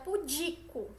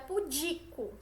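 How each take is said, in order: First: The stress falls on the second syllable. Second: The same.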